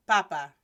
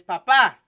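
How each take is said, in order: First: Papa as PA-pa, low falling end; stress on first syllable. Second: Papa as pa-PA, final syllable much louder; stress on last syllable. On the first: Teacher repeats papa without the accent, first-syllable stress. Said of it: "I'll say it again". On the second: Teacher repeats papa with an accent, last-syllable stress. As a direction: drive hard into the second pa of papa. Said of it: "P A P A with an accent". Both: Shown as a demonstration.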